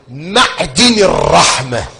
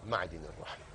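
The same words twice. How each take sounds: First: Declaimed phrase. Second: Soft echo. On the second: Phrase repeated very softly. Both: Acted.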